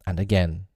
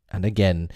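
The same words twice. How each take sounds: The two takes are said the same way.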